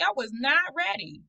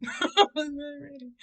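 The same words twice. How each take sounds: First: Said in the usual way. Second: Laughing. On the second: Real, not acted.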